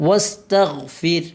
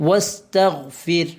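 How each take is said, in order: Both takes have the same delivery.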